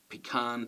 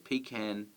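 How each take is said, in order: First: It has the American stress placement. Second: It has the Australian stress placement. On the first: "They may say" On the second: "where we say"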